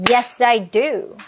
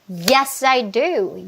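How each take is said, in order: Both takes have the same delivery.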